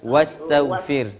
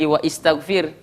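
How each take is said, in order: First: The vowel after wa is dropped and linked. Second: The vowel after wa is pronounced separately. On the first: The speaker calls it right. "tapi wastaghfir" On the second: The speaker calls it wrong. "tidak dibaca lagi wa istaghfir"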